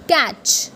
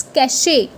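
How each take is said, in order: First: Cache said as catch; the mistaken cache; wrong way. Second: Cachet as ka-shay; the correct cache. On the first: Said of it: "What people say is". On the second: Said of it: "No, it's cachet". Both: Shown as a demonstration.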